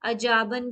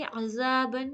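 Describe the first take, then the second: First: The middle consonant is a j sound. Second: The middle consonant is a soft th sound. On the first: The speaker calls it wrong. "इसे अजाबन भी नहीं कहेंगे" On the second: The speaker calls it right. "ज़ाल की अदायगी ज़ुबान की नोक थोड़ी बाहर निकाल के"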